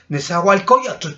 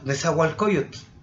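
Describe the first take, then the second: First: One syllable is pushed up in pitch. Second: The word is said plainly and level. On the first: The speaker calls it wrong. "La gente suele decir así, ... ¿por qué subes el ki?" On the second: The speaker calls it right. "no se dice así nada más"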